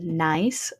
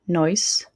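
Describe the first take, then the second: First: The vowel is a standard open 'eye' sound. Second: The vowel starts higher, sounding nearer 'oi'. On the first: "instead of nice" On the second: "they're going to say"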